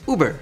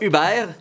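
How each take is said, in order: First: The name is said with English vowels. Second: The name is said with French vowels. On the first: The speaker calls it right. "ça se dit Uber" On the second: The speaker calls it wrong. "vous n'avez aucune raison d'appeler ça Uber"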